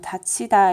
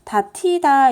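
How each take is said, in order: First: The middle consonant is an aspirated ch sound. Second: The middle consonant is an aspirated t sound. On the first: "이 모음이랑 합쳐져서 국외음화가 일어나요. 그래서 다치다 이렇게 되고요" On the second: "다티다 이렇게 돼야 되는데"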